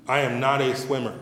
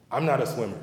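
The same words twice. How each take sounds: First: "I am not a swimmer" in full, each word weighted; emphatic restatement. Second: Said in the usual way. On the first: Real, not acted. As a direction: stress "I am not", spelling it out firmly.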